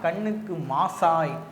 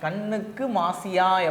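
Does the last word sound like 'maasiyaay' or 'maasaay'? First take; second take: maasaay; maasiyaay. First: The last word is said 'maasaay'. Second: The last word is said 'maasiyaay'. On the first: This is the standard written form. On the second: This is the everyday spoken form.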